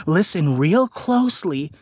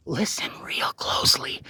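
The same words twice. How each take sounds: First: Said in the usual way. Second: Whispered, much softer. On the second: Acted. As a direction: lean in and breathe the words. Whispered aside to viewers.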